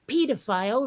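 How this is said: It is said with a British pronunciation. "in Britain, they do say"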